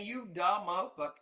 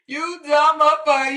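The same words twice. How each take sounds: First: Muttered under the breath, softer; muttered insult. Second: "You dumb motherfucker." yelled high and loud, "dumb" stressed; exploding insult. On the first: Muttering at Donna before blowing up, softly. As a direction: say "You dumb motherfucker." low to yourself, half disbelieving. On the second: Yelling at Donna after reading the answer, high and loud. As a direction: blow up on the repeat. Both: Real, not acted.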